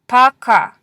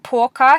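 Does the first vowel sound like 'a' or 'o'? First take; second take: a; o. First: The first vowel sounds like 'a'. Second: The first vowel sounds like 'o'. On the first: The speaker calls it right. "when the O is pronounced as an A" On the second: The speaker calls it wrong. "You may have said poka here, and that's okay"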